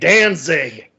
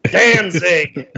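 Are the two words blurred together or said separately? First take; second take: blurred; blurred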